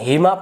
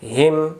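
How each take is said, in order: First: The word ends with an extra vowel sound. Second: The word ends on a bare consonant sound. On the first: The speaker calls it wrong. "এখন হিমা পড়া যাবে না" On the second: The speaker calls it right. "জবরটাকে বাদ দিয়ে জবরের জায়গাতে একটা সাকিন"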